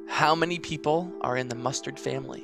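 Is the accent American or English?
American. It is spoken in an American accent. "And I'll do it in a classic American accent"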